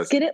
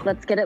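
First: It is said forcefully with more energy. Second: It is said flatly with little energy. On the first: "Say it with your chest" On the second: "I said that with less enthusiasm than I should have"

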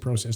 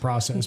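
First: Process is said with a Canadian pronunciation. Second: Process is said with a non-Canadian pronunciation. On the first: "I speak Canadian, that's why I say process" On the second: "not process"

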